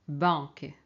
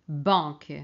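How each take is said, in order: The two takes are said the same way.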